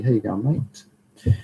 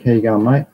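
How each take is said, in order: First: Slow, drawn-out Australian greeting; broad Aussie accent. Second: Said in the usual way. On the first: Pretend. Greeting a chat viewer on request in a broad, slow Australian accent. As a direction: lay the Australian accent on thick, slowly. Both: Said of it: "Say the Aussie".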